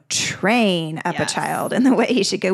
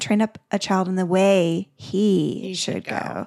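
First: The stress falls on the word train. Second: The stress falls on the word he. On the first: The act of training is what matters most. "We focus so much on this, yes. this training piece" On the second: The path should fit the individual child. "The way that's specific to their unique wiring"

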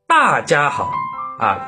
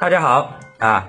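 First: The first syllable 'da' is strongly stressed. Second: The first syllable 'da' is reduced and glossed over. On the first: The speaker calls it wrong. "一定要把这个字说的特别的强调" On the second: The speaker calls it right. "大字带过就行了"

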